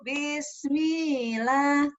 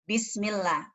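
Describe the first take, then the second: First: The middle is drawn out with a wavering melody. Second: The middle is short and said without wavering. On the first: It means in my name. The speaker calls it wrong. "Kalau digoyang kayak begini, berarti kan penambahan tanda panjang" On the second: It means in the name of God. The speaker calls it right. "bismi. Langsung Allah. Bismillah. Enggak boleh digoyang"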